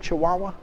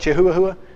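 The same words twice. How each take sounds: First: It is pronounced chee-wah-wah, not as spelled. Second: It is pronounced letter by letter as spelled. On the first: The speaker calls it right. "It doesn't pronounce like it's spelled" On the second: The speaker calls it wrong. "I read it Chihuahua"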